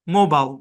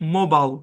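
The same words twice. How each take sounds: First: The last syllable is a short 'bul'. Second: The last syllable is a short 'bul'.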